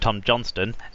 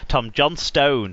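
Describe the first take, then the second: First: The final syllable is said lightly, without emphasis. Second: The final syllable 'stone' is strongly emphasised. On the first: "rather than calling him" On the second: "now we emphasise the stone"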